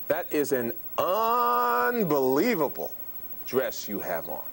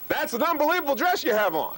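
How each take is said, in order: First: The sounds are stretched out and drawn long. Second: The words are said with marked loudness. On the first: "Duration of sound, which is rate"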